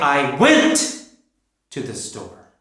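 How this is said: The word went is stressed.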